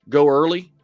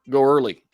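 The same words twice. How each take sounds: Both takes have the same delivery.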